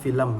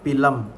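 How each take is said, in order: First: The word begins with an F sound. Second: The word begins with a P sound. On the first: The speaker is educated. "yang terpelajar menggunakan film menggunakan V" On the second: The speaker is not educated. "menggunakan P"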